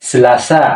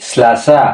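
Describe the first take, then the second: The two takes are said the same way.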